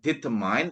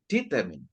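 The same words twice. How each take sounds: First: The last syllable sounds like 'mine'. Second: The last syllable sounds like 'min'. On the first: The speaker calls it wrong. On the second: The speaker calls it right.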